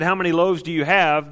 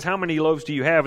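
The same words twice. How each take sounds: First: "How many loaves do you have?" pushed louder, falling firmly on "have"; not asking, challenging: drop "have" down hard; pointed challenge. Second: Rising question on "How many loaves do you have?", ending up on "have"; asked as a question. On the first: Jesus challenging his disciples, pointed falling delivery. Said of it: "I think when Jesus said". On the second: Reading the gospel line as a genuine question. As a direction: read it as the written question, lifting "have". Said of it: "And there's a question mark". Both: Shown as a demonstration.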